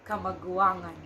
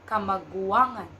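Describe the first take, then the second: Both takes have the same delivery.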